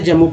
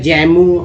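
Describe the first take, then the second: First: The first vowel is short, as in 'cut'. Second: The first vowel is open, as in 'cat'. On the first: The speaker calls it right. "कैसे जम्मू पढ़ेंगे" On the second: The speaker calls it wrong. "ऐसे पढ़ेंगे तो गलती हो जाएगा"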